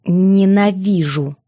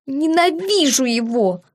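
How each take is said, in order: First: Slow, stubborn repetition; stubbornly. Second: A tearful sob-tinged outburst; sobbing. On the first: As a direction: dig in and drag the word out. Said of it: "упрямо повторила я". (упрямо, медленно) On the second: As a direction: choke it out through tears. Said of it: "всхлипнула я". (со всхлипом) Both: A narrator's reading.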